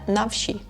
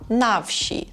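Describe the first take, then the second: First: The stress falls on the word wsi. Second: The stress falls on the word na. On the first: The speaker calls it wrong. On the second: The speaker calls it right. "dajemy naголос, akcent na букву A"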